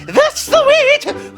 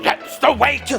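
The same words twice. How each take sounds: First: It is said in a silly voice. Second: It is said in a grumpy voice.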